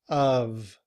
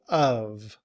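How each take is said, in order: First: It is said fully, ending in a v. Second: It is said fully, ending in a v.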